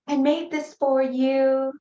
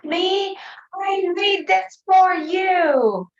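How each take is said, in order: First: Put-on higher, slow little girl voice; sweetly offering a gift as a child; daughter's voice. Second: Put-on much higher, louder, slow child's yell; a little girl yelling for attention. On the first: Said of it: "And she's". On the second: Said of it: "she yells at me".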